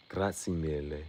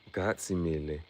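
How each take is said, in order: Both takes have the same delivery.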